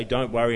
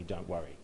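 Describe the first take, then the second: First: DON'T WORRY pushed out loud and firm; emphatic. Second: Said in the usual way. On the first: Retold or imitated. Preacher quoting God's command to the congregation, "Don't worry" said loud with emphasis. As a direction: put force on both words, "Don't worry". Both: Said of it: "saying that sort of with emphasis".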